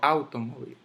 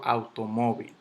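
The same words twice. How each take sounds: First: The stress falls on a syllable other than mo. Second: The stress falls on the syllable mo. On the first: The speaker calls it wrong. "yo no digo automóvil" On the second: The speaker calls it right. "yo digo automóvil ... En la mo"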